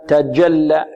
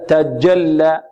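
Both takes have the same delivery.

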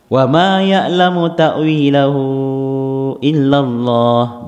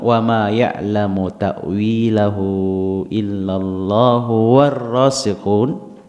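First: It comes to a full stop after illallah. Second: It runs on without a break after illallah. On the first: Only God knows its true reality. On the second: Those firm in knowledge also know its interpretation. "Jika dibaca bersambung"

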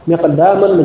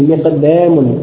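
First: The long a vowel is plain and open. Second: The long a vowel is tilted toward e.

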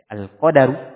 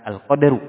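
First: A short a vowel follows the d sound. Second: No vowel follows the d sound. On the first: The speaker calls it right. "yang mana pelafatannya dengan memfatha huruf dal" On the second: The speaker calls it wrong.

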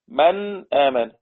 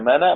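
First: A glottal stop separates the two words. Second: The words run together with no glottal stop. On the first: "نون ساكنة بعدها همزة" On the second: "ومفيش همزة خالص احذفها تبقى منا"

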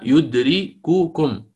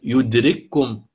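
First: The two k sounds are pronounced separately. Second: The two k sounds are merged into one. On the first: This is the underlying original form. "أصلها يدرككم" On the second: This is how it is actually recited. "فقرأت يدرككم"

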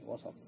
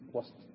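First: The s sound is followed by a short vowel. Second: The s sound carries no vowel after it. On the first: It means just, best and most excellent. "لتحريك السين" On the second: It means the middle point between two ends. "الوسط بسكون السين"

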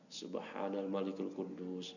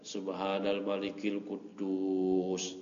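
First: The phrase is short and at normal volume. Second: The phrase is drawn out and said louder.

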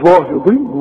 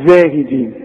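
First: The first consonant is a heavy, emphatic z. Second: The first consonant is a plain, thin z. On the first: The speaker calls it wrong. "عمرك ما هتقول لي كده أبدا" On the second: The speaker calls it right. "لكن انت بتقولها سليمة صحيحة"

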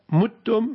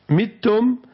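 First: The first vowel is u, as in muttum. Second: The first vowel is i, as in mittum. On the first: The verb pattern is mata, yamutu. "متتم من مات يموت" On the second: The verb pattern is mata, yamatu. "متتم من مات يمات"

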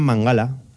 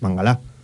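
First: The stress is not on the last syllable. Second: The stress is on the last syllable. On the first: The speaker calls it wrong. "Había narradores que decían Mangalá" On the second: The speaker calls it right. "acababa en aguda"

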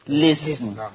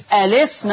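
First: The word starts directly with the L sound. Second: The word starts with a vowel before the L. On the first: "او حذفها" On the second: "اثبات همزة الوصل"

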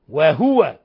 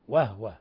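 First: The h is followed by a short u vowel. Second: The h is silent, with no following vowel. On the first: This is the other readers' way of reciting it. "أما البقية ومنهم ورش وعاصم وهو" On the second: This is one group of readers' way of reciting it. "سكنوا الهاء وهو وهو"

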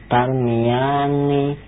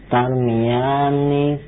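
No difference in how they are said.

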